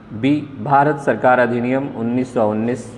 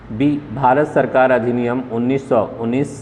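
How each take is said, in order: The two takes are said the same way.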